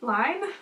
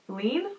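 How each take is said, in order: First: The vowel sounds like 'eye', as in 'line'. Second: The vowel sounds like 'ee', as in 'lean'. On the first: This is how people who know the language say it. "I think it's Line" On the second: This is how most people say it. "everyone else is like, lean?"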